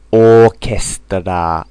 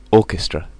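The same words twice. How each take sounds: First: "Orchestra" slow, syllable by syllable, ending in a full a; "Orchestra" said the Japanese way, ookesutora; "Orchestra" as a katakana word; Japanese loanword style. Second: Said in the usual way. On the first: Shown as a demonstration. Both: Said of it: "Japanese English".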